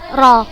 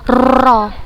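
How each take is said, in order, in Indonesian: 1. R digetarkan ringan dengan getaran yang lembut. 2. R digetarkan kuat, terlalu banyak getarannya. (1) "tetapi tetap bergetar walaupun halus" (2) "bukan ro. Khoto, salah"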